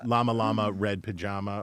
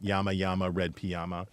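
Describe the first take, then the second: First: The word llama begins with an L sound. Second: The word llama begins with a Y sound. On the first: "is it llama" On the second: "or yama"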